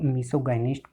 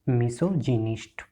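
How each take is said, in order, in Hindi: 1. दूसरा अक्षर 'guy' जैसा सुनाई देता है। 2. दूसरा अक्षर 'jih' जैसा सुनाई देता है। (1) "कई बार हम इसको मिसोगाइनिस्ट प्रोनाउंस कर देते हैं, तो ये गलत है" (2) "ये क्या होगा"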